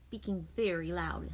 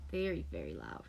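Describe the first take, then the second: First: Said in the usual way. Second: Very loud said low. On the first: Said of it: "[name]'s speaking". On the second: Shown as a demonstration. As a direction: drop to a low, soft voice on very, very loud.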